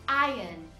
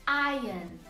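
Both takes have the same delivery.

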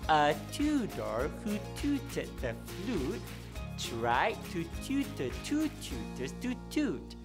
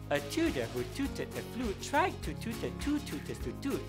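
First: The sentence is said at a slow pace. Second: The sentence is said at a fast pace. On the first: "We will say this slowly first" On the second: "let's say this faster"

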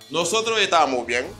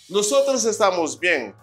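First: The s sounds are dropped or swallowed. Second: The s sounds are fully pronounced.

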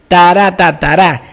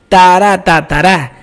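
No difference in how they are said.

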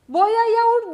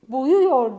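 First: The vowel before -yor is a wide A. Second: The vowel before -yor is a narrow U. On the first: The speaker calls it wrong. "değil" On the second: The speaker calls it right.

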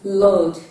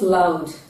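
First: The vowel is a single long O. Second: The vowel glides as a diphthong. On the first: The speaker calls it right. "It is loud. The AU spelling in the word is representing the long O sound" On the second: The speaker calls it wrong. "It is not loud"

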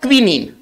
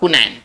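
First: It begins with kwi and ends with neen. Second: It begins with ku and ends with nain. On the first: This is how the English word is read. "इसका उच्चारण हम पढ़ेंगे क्विनीन" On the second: This is the Hindi form of the word. "इसका हिंदी होगा कुनैन"

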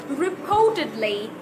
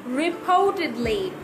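No difference in how they are said.

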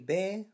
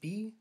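First: The word rhymes with 'say'. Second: The word rhymes with 'see'. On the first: The speaker calls it right. "but it's bay" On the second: The speaker calls it wrong. "I'm saying be"

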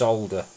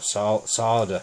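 First: It is said in a British way with L. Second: It is said in an American way without L. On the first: "It's solder. ... There's a sol at the beginning" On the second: "Our Canadian and American friends like to say solder"

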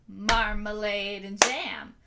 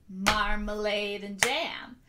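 The two takes are said the same way.

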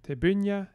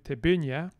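First: The stress is on the second syllable. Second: The stress is on the second syllable.

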